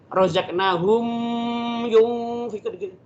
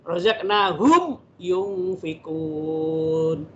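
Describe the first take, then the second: First: The m sound blends into the next word. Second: The m sound is pronounced clearly and distinctly. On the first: The speaker calls it wrong. "tidak boleh" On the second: The speaker calls it right. "harus dibacanya tetap jelas"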